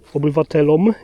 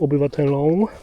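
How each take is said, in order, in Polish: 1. Wymawia się wyraźne -om. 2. Wymawia się nosowe -ą.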